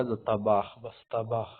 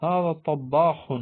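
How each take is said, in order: First: طباخ as short "tabakh", single b; unweighted "ta-bakh" for طباخ; colloquial Arabic pronunciation. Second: طباخ slow, higher and louder, double b; standard Arabic pronunciation. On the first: Teacher quoting everyday Arabic speakers, طباخ as short "tabakh". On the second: Teacher presenting the word for cook, طباخ slow and emphatic. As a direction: stretch طباخ out, "tab-baa-kh". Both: Shown as a demonstration. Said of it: "عام عربی میں لوگ کیا بولتے ہیں".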